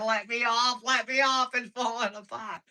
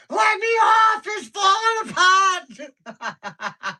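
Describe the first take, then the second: First: High-pitched imitated pleading; mock panic. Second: Full-volume, very high shriek; imitated screaming. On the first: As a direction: mimic a panicking child, short of a full scream. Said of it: "she's over there panicking". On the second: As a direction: scream like a terrified child on a ride, drawing out the end. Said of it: "She was screaming".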